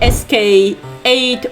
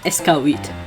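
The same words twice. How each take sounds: First: The title is pronounced the English way. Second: The title is pronounced the French way.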